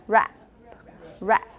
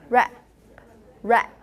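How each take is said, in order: No difference in how they are said.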